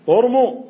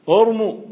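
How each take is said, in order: First: The word begins with a 'u' vowel. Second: The word begins with a 'u' vowel.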